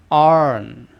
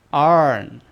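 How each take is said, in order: No difference in how they are said.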